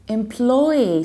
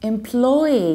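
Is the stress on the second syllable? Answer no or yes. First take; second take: yes; yes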